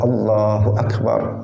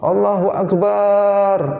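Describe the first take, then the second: First: The vowel in the last syllable is short. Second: The vowel in the last syllable is drawn out. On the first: The speaker calls it right. "kita juga bertakbir Allahu Akbar" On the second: The speaker calls it wrong. "memanjangkan lafadz ba pada akbar ... semangat tapi salah"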